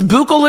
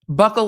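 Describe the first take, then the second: First: It is the fancier, posher-sounding pronunciation. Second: It is the ordinary, everyday-sounding pronunciation. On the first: The speaker wants to sound sophisticated. "It's buccal if you're bougie" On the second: The speaker is talking in an ordinary way. "buckle if you're normal"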